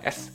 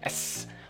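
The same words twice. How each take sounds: First: The S hiss is thin and short. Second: The S hiss is drawn out and long. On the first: "Artinya kan tipis gitu ke S" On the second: "Masih agak panjang"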